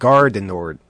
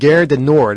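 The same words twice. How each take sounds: First: The first word is pronounced 'gar'. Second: The first word is not pronounced 'gar'. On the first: The speaker calls it right. "I should be saying" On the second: The speaker calls it wrong. "all the time I was saying"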